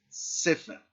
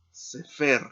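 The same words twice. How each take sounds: First: "Sefer" with strong SE, light fer; stress on first syllable. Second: "Sefer" as se-FER, final syllable louder; stress on last syllable. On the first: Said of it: "aquí hay que acentuar la palabra". ("Sefer" acentuado en SE, la primera sílaba) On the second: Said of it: "el acento en la última sílaba". ("Sefer" acentuado en la última sílaba, FER) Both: Shown as a demonstration.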